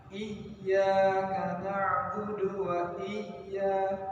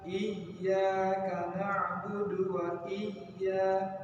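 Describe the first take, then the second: No difference in how they are said.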